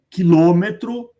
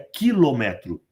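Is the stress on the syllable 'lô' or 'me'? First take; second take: lô; me. First: The stress falls on the syllable 'lô'. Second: The stress falls on the syllable 'me'. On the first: This is the usual, tolerated everyday form. "uma permissão que é cultural" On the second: This is the form the international rule requires. "O correto seria quilômetro"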